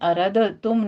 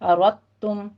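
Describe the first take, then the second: First: The d is pronounced separately, with a bounce. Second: The d is fully merged into the t. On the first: The speaker calls it wrong. "अरद तुम नहीं पढ़ेंगे" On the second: The speaker calls it right. "दाल का कलकला ख़त्म करके इसको मुकम्मल तौर पर मुदगम कर दिया जाएगा ता में"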